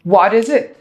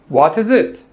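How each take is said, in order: First: The t in 'what' sounds like a soft d. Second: The t in 'what' is a clear t.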